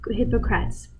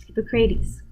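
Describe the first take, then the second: First: "Hippocrates" said in three syllables, ending like "crats"; mispronounced name. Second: "Hippocrates" ending in "CRAY-teez"; corrected pronunciation. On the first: Lecturer naming the Greek physician, "Hippocrates" mispronounced as HIP-uh-crats. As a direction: say "Hippocrates" as HIP-uh-crats, rhyming its end with "bats". Stumbles on name, then corrects it. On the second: Lecturer correcting the Greek physician's name, "Hippocrates" said as hippo-CRAY-teez. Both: Real, not acted.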